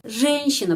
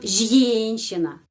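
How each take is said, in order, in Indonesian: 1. Vokalnya dilafalkan sebagai e biasa. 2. Vokalnya dilafalkan sebagai ya. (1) "Karena itu pengucapannya E"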